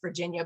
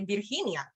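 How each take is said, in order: First: It is pronounced the English way. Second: It is pronounced the Spanish way. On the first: "we know it's Virginia" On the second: "If you wanted to sound really native"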